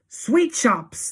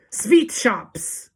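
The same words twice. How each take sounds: First: High, loud excited echo; crowd cry. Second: Put-on high, loud accented witch shout; Grand High Witch shout. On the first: Witches echoing their leader, high excited cry. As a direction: cry it back in delight. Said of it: "they cried". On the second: Witch leader revealing what to buy, loud shout. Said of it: "shouted the Grand High Witch". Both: A narrator's reading.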